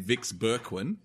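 The name is said in an Australian English way. This is how Australian soldiers said it. "to the Aussies, it would have been"

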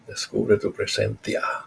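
The c in presencia sounds like a lisped th.

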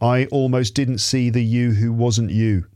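Each word is separate and flat. The speaker calls it wrong. "I don't want you to do this"

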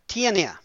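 It is said with anglicized English vowels and syllables. The speaker calls it wrong.

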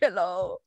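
The voice rises at the end, like a question.

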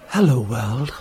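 It is said in a sexier, seductive voice.

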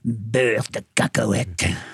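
It is said in a scornful, disdainful tone.

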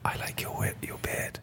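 It is said in a whisper. It sounds creepy. "do you not think whispering is creepy?"

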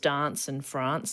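Said in a Western Australian, Queen's English accent. "Western Australia and South Australia is more of the Queen's English"

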